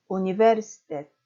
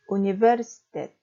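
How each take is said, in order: First: 우니베르시테트 stressed on 시, said carefully; stress on third-last vowel again. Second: 우니베르시테트 with the stress on 시, not on 스; stress on third-last vowel. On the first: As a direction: repeat 우니베르시테트 leaning on 시. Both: Shown as a demonstration. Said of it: "뒤에서 세 번째 모음인 외에 강세".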